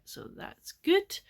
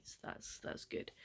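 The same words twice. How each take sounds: First: High, slow, rising "so that's good"; high drawn-out. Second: Barely voiced, dropping away; very quiet. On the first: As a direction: stretch it up brightly. Pleased about enjoying the book. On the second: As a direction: let it fade almost to nothing. Sleepy bedtime sign-off. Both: Real, not acted.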